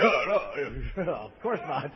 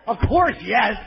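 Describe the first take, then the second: First: Low, soft, unconvincing denial; feigned denial. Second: Blurted honest answer. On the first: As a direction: back down quietly with a badly faked no. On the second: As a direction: answer instantly as if it were obvious. Honest answer to girlfriend's question. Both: Acted.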